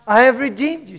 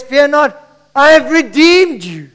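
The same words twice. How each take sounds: First: Said in the usual way. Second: Raised, higher preaching voice; ringing declaration in God's words; loud proclamation. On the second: Acted. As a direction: proclaim it to the whole church. Proclaims quote, then repeats it down.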